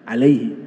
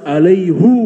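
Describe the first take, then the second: First: The word ends in a light 'i' vowel. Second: The word ends in a heavy 'u' vowel. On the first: It is the normal, light reading. "Kalau alaihi itu ringan" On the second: It signals how weighty the covenant is. "Harus alaihu, berat"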